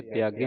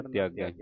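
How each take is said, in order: First: ਤਿਆਗੇ ending in a close "e"; wrong vowel ending. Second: ਤਿਆਗੈ ending in an open "ai"; open vowel ending. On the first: Teacher warns learners off this reading, ਤਿਆਗੇ with close "e" ending. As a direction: say ਤਿਆਗੇ with a narrow final "ay". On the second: Teacher corrects learners' reading, ਤਿਆਗੈ with open "ai" ending. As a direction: say ਤਿਆਗੈ with a wide final "eh". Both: Shown as a demonstration. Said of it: "ਤਿਆਗੇ ਨਹੀਂ ਪੜਨਾ".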